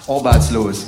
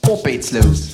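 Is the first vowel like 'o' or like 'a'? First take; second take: o; a. First: The first vowel sounds like an 'o'. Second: It is said in a Saxon accent.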